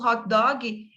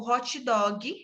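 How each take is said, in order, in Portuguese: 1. Ela é falada com pronúncia inglesa. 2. Ela é falada com pronúncia do português brasileiro. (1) "mantêm a sua ou a escrita original" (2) "passa a ser o hot dog, forma fonética"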